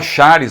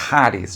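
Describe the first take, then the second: First: It begins with the Portuguese ch sound. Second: It begins with a breathy h sound. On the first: The speaker calls it wrong. "embora em português seria Charis" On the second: The speaker calls it right. "se você quiser usar uma pronúncia correta, seria Haris"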